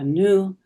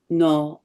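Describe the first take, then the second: First: The first syllable is said as 'nu'. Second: The first syllable is said as 'no'. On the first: The word means new or freshly arrived. "depending on how you pronounce the first syllable, no or nu" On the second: The word means nine, as in the nine moods. "depending on how you pronounce the first syllable, no or nu"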